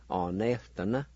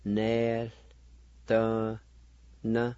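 First: "or, nel, the, na" run together as one word; whole-word pronunciation. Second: "Nel, the, na" in long, separate syllables; syllable-by-syllable pronunciation. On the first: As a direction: link "or, nel, the, na" without pauses. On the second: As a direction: sound out "Nel, the, na" with clear gaps. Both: Shown as a demonstration. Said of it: "it's pronounced like this".

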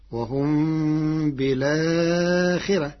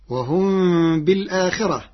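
First: بالآخرة recited "bilaakhirah", no glottal stop; slow recitation, بالآخرة joined as "bi-laa", light ra; hamza dropped. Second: بالآخرة recited "bil-aakhirah"; full hamza. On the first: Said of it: "مع حذف الهمزة، فتصير". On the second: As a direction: glottal stop after the lam in بالآخرة. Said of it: "بنقل حركة الهمزة إلى الساكن قبلها". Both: Shown as a demonstration.

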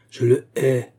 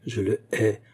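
First: Louder, stamping declaration of hate; angry repetition. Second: Hatred held at normal volume; first, restrained declaration of hate; contained hatred. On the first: Olga repeats her hatred stamping her foot, more furiously. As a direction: hammer out the hatred. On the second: Olga confesses her hatred to Ladov, with contained anger. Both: A narrator's reading. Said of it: "répéta Olga en frappant du pied".

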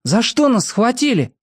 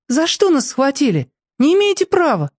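First: Repeating her words. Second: Put-on high thin girl's voice, unafraid; thin fearless girl. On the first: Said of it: "повторил её слова". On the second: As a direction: pipe it up high but brave. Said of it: "Она тонко, но безбоязненно сказала". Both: A narrator's reading.

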